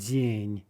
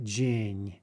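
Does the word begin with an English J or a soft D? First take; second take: soft D; English J. First: It begins with a soft palatalized D sound. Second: It begins with an English J sound. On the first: The speaker calls it right. "the actual Russian J" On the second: The speaker calls it wrong. "not Jing"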